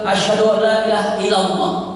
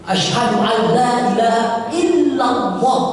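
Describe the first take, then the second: First: The consonant is said short, not pressed. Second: The consonant is pressed and held long. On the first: The speaker calls it wrong. "Jangan bilang" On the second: The speaker calls it right. "tekan aja sebagai ditekan ... jelas"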